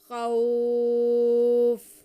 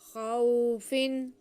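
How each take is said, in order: First: The vowel in khaw is drawn out long. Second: The vowel in khaw is kept short. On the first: The reader stops on this word. "जब हम वक्फ करेंगे तो आर्जी तौर पे इस पे मद करेंगे" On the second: The reading continues without stopping. "अमलार में तो हम इसे खींचते नहीं है, नरमी से पढ़ते हैं"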